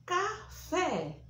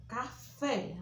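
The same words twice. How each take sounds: First: Café high, open é stressed. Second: Said in the usual way. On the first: Shown as a demonstration. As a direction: sing out Café with a wide open é. (Café com é aberto e agudo) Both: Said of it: "acento agudo no E".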